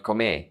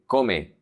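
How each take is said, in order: First: "come" wrongly stressed on the last syllable, co-ME; wrong final stress. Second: "come" stressed on the first syllable, CO-me; stress on second-to-last syllable. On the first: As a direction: push the stress onto the end of "come": co-ME. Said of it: "not come". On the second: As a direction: hit the CO in "come", let the me fall away. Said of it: "emphasis is always in the second to the last". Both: Shown as a demonstration.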